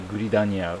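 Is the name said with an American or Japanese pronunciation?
Japanese. It is said with Japanese-style syllables. "in Japanese they say guridanya"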